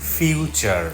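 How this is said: The final r sound is pronounced. This is the American pronunciation. "আমেরিকানরা বলবে ফিউচার"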